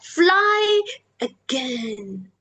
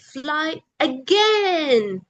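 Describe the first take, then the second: First: The word fly is high, again is low. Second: The word again is high in pitch. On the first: The speaker calls it right. "use the high tone in fly again, and with the low tone at the end" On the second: The speaker calls it wrong. "you ended with again with a high tone"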